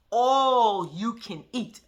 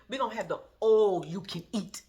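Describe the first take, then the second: First: "All you can eat" drawn out very slowly and louder, each word spelt out; mock the careful pronunciation, word by word; slow exaggerated pronunciation. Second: Said in the usual way. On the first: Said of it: "you was gonna pronounce it". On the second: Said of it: "She said".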